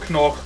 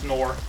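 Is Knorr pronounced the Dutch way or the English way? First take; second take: Dutch; English. First: Knorr is pronounced the Dutch way. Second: Knorr is pronounced the usual English way.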